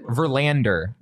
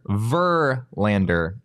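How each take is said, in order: First: The stress is not on the first syllable. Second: The stress is on the first syllable. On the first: The speaker calls it wrong. "Not correct" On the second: The speaker calls it right. "So the emphasis is on the first syllable"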